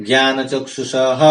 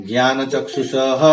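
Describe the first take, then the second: Both takes have the same delivery.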